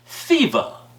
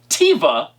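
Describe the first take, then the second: First: The name begins with a th sound. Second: The name begins with a plain t sound. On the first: The speaker calls it wrong. "not Thiva" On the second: The speaker calls it right. "it's Tiva"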